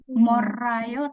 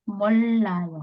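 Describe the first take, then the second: First: The middle consonant is a single flapped r. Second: The middle consonant is a long l sound. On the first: The speaker calls it wrong. "bukan morayo" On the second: The speaker calls it right. "tapi mollayo"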